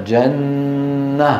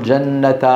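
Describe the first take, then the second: First: جنة held slowly with a silent final ha; slow pausal form. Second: جنة said with the tanween ending; wrong way. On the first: Teacher showing the correct stop, slowly. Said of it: "نقف عليها". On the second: Teacher showing the wrong pausal reading. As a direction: say جنة as jannatan, not stopped. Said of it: "ولا نقول". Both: Shown as a demonstration.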